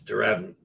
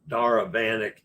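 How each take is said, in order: First: The first syllable is pronounced 'dur'. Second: The first syllable is pronounced 'dar'. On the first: The speaker calls it right. "it's Dur" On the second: The speaker calls it wrong. "I was saying Dar"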